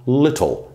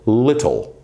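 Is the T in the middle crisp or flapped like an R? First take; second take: crisp; crisp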